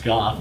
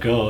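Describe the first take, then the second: First: The name ends in an f sound. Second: The name ends in an open vowel. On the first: The speaker calls it right. "it's Goff" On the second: The speaker calls it wrong. "not go"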